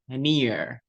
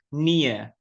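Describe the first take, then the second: First: The final R sound is clearly pronounced. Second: The final R sound is left silent. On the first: "If for example you use American accent, then the R sound will will sound like this" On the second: "if you choose to use British accent ... the R sound is invisible"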